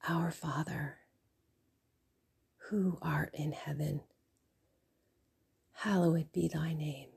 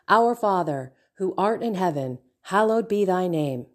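First: It is said quietly under the breath. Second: It is recited at normal volume, mechanically.

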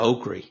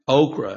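First: The word is said in a Louisiana accent. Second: The word is said in a general accent.

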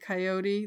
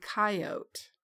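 First: It is said the way Texans say it. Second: It is said the way Wyoming people say it.

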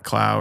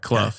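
First: The name does not rhyme with tough. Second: The name rhymes with the word tough. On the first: The speaker calls it wrong. "not Clough" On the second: The speaker calls it right. "Clough, not Clough. ... Just like tough"

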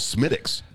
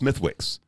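First: The middle 'th' and 'w' sounds are dropped. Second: The middle 'th' and 'w' sounds are pronounced. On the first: The speaker calls it right. "It's called Smittix" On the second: The speaker calls it wrong. "I made the mistake"

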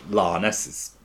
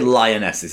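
First: The first vowel is flattened to a long 'ar'. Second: The first vowel glides fully, like 'lie'. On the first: "It's just how Londoners pronounce words these days" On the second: "They don't say lionesses"

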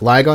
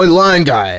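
First: The name sounds like one word, Ligon. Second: The name sounds like two words, lion guy. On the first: The speaker's own group says it. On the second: Someone else is being imitated.

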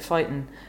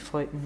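First: It is said in the speaker's usual accent. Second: It is said in a North Dublin accent. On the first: "I just say fighting" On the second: "like a North Dublin accent, which would be fighting"

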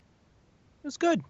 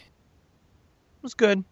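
First: It is said warmly, with enthusiasm. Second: It is said flatly, without enthusiasm. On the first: The day really was good. "Now my day was good. It's a completely different kind of good" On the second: The day was not actually good. "It wasn't that good, right? But I said the word good, but it wasn't that good"

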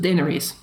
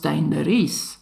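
First: It also changes the I sound. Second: It drops one unfamiliar sound from the original. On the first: The name has been changed further by local speakers. "because the I is probably also not super common, you go to Daenerys" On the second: Speakers lacking one sound have changed the name. "people of Westeros who probably don't even have the sound us can't pronounce that. And so that already becomes Daenerys"

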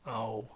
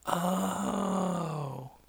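First: It sounds disappointed. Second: It sounds like slow understanding.

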